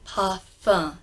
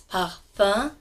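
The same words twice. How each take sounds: First: Slow, parfum with a nasal end and no M; parfum, R left alone; French parfum. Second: Slow, parfum with a nasal end and no M; French parfum. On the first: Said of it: "say parfum". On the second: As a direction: parfum without rolling the R. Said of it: "In French". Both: Shown as a demonstration.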